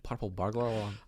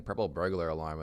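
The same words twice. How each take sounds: First: "Purple burglar alarm" in a rough Scottish accent, rolled r's. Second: Said in the usual way. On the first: Shown as a demonstration. Friend tries the line in a Scottish accent. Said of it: "in a Scottish accent". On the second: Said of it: "Try saying".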